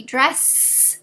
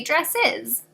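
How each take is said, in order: First: "dress" with a long hissed S at the end; wrong plural of dress. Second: "dresses" in two syllables, DRESS-iz; correct plural dresses. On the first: Teacher shows fourth graders a nonsense plural, "dress" with a stretched S. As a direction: drag out the final S of "dress", adding no extra syllable. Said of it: "No, that doesn't make sense". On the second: Teacher gives fourth graders the right plural, "dresses" with an -iz ending. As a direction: end "dresses" on a clear added -iz syllable. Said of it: "We have to say dresses". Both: Shown as a demonstration.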